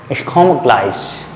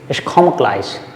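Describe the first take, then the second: First: The final e of komme is dropped. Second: The same.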